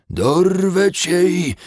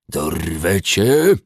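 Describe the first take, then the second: First: High, loud, slow dwarf shout; shouted dwarf threat. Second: Slow, loud hissing dwarf; hissed dwarf threat. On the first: Acted. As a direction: scream the threat from the mud. Dwarf repeats threat louder. (wrzeszczący krasnolud) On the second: A narrator's reading. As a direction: hiss the threat, dragging it out. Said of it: "wysyczał". (syczący krasnolud)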